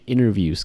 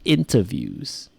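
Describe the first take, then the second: First: It is said in an American accent. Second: It is said in a British accent.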